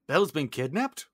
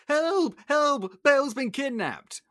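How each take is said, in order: First: Questioning rise at usual pitch; acted surprised query after a gasp; Gaston taken aback. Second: High, loud cries for help; acted frantic shouting; panicked Maurice. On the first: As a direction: echo the news in disbelief. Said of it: "And Gaston's like". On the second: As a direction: burst in raising the alarm. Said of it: "Maurice bursts in".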